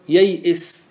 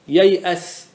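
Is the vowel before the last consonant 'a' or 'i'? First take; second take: i; a. First: The vowel before the last consonant is i. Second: The vowel before the last consonant is a. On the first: "بالكسر" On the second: "بالفتح"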